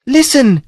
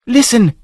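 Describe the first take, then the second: First: Even higher female cry; cried out higher. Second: High female cry; cried out. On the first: Princess repeats her call, higher and urgent. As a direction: call it again, still higher. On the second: Princess hears trumpets and cries out high. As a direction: call out high and urgent. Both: A narrator's reading. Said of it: "she cried".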